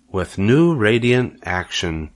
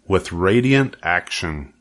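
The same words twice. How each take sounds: First: Slowly repeated. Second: Said in the usual way. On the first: Acted. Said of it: "repeated Charlotte slowly". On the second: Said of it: "Charlotte read the words".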